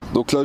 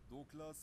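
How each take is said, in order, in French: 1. La voix semble claire et forte. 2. La voix semble faible et difficile à entendre. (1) "je fais le test avec le micro connecté" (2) "je n'utilise pas le micro"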